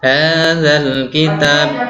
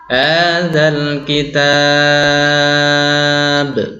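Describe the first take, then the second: First: The stretched vowel is held too briefly. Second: The stretched vowel is held at medium length. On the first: The speaker calls it wrong. "salah juga karena kurang kurang panjang" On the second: The speaker calls it right. "itu saya pakai yang empat harokat"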